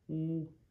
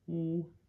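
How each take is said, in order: The two takes are said the same way.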